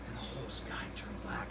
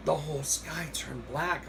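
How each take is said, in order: First: Hushed, low ominous whisper. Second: Said in the usual way. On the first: Retold or imitated. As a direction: breathe it like a spooky secret. Retelling Jose's eerie sky remark.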